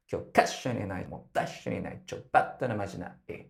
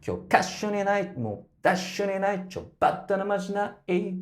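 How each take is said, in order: First: Spoken, each phrase cut off quickly; clipped phrase ends. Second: High sung line, hitting each stress hard; extra strong stress. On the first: Coach speaks the line to show the quick cut-offs. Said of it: "cuts off quite quickly". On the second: Coach sings with the extra strong stress. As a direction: punch the stresses as you sing. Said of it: "this extra strong stress". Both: Shown as a demonstration.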